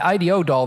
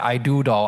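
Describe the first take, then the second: First: The name is spelled out as three letters. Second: The name is said as the words I do. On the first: The speaker calls it wrong. "I always pronounce it wrong, but I always say I D O" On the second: The speaker calls it right. "or the I do doll"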